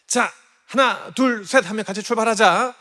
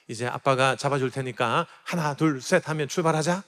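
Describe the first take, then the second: First: Eager countdown. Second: Said in the usual way. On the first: Retold or imitated. Dad counting his daughter off on her bike, eager and loud. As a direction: cheer her off like a proud dad.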